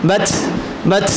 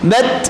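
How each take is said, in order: First: The final t releases a strong puff of air. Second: The final t releases only a little air. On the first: The speaker calls it wrong. "বেশি বাতাস যেন না হয়, বাত বাত এমন যেন না হয়" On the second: The speaker calls it right. "অল্প বাতাস"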